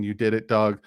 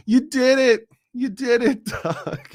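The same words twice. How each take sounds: First: Said in the usual way. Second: Much higher and louder, laughing through it; hammed-up impression of a politician cheering someone on; high, laughing put-on voice of a public figure; Kamala Harris impression. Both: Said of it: "in my best Kamala Harris voice".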